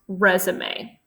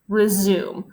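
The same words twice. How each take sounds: First: It is pronounced like the noun for a job application. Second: It is pronounced like the verb meaning restart. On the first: The speaker calls it right. "this word is actually pronounced resume" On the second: The speaker calls it wrong. "you might think it says send resume"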